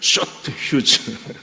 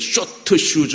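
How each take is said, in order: First: Short ends clipped, with no added vowel. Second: Short has an added vowel, Japanese-style. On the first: The speaker calls it right. "제대로 발음하면" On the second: The speaker calls it wrong. "그 일본 사람처럼 발음이"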